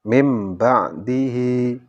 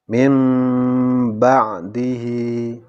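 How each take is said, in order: First: The m is short with no nasal hum. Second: The m is held with a nasal hum. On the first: The speaker calls it wrong. "tanpa dengungan ... Ini kurang kurang tepat" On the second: The speaker calls it right. "bacaan iqlab juga harus disertai dengan dengungan"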